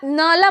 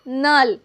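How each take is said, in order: First: It is said with two syllables, ending in a vowel. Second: It is said as one syllable, ending in l. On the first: The speaker calls it wrong. "इसे जो है ना नाला मत पढ़िएगा" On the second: The speaker calls it right. "क्या पढ़िएगा, नल"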